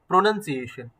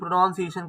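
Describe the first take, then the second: First: The second syllable sounds like 'nun'. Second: The second syllable sounds like 'noun'. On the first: The speaker calls it right. "एन यू एन है। This is प्रोनाउंसिएशन" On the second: The speaker calls it wrong. "कई लोग इसको प्रोनाउंसिएशन प्रोनाउंसिएशन करके बोलते हैं"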